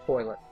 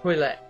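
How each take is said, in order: First: It is said in a plain, everyday manner. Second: It is said in a posh, fancy manner. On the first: It is an ordinary everyday setting. "Otherwise, it's toilet" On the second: The company is formal and refined. "hosting a dinner party and the Queen of England is there"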